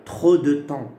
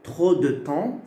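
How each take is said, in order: Both takes have the same delivery.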